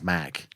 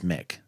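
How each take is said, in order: First: The prefix is said with an 'a' vowel. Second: The prefix is said with an 'i' vowel. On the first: The name is Scottish. "if it's a Scottish thing, then I think it's Mac" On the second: The name belongs to an American fast food chain. "if it's like an American fast food chain, I would say it's Mick"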